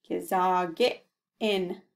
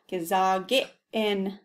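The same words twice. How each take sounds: First: Gesage in stretched out slowly; slow model word. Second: Gesage in said slowly with the glottal catch; slow careful model. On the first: Teacher repeating the word slowly. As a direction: draw out Gesage in for learners. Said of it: "Say that slowly". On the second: Teacher repeating the glottal word, slowly. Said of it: "Notice that little glottal". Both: Shown as a demonstration.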